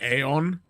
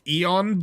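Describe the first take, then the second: First: The word begins with an 'ay' sound. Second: The word begins with a plain 'ee' sound. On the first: The speaker calls it wrong. "it can be entirely understandable if you go Aeon" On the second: The speaker calls it right. "it's pronounced Eon"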